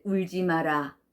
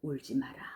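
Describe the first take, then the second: First: Said in the usual way. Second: Dropped soft and low; a quieter, gentler take; softer read. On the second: Shown as a demonstration. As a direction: say it softly, almost to yourself. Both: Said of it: "이렇게 읽는 것과".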